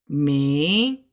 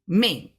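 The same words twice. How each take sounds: First: The pitch dips low then rises. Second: The pitch falls sharply from high. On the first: "a third tone" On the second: "and a fourth tone"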